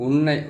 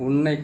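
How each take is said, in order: The two takes are said the same way.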